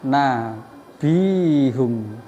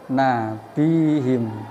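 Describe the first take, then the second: First: The ending has a u vowel before m. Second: The ending has an i vowel before m. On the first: "Terus nabium juga sama seperti itu ya" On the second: "oleh diwaca kasroh"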